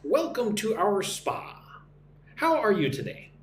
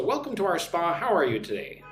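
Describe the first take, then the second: First: Slow, clearly separated teaching delivery; slow model reading. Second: Said in the usual way. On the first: Shown as a demonstration. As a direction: model it slowly for learners to repeat. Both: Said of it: "Listen and repeat".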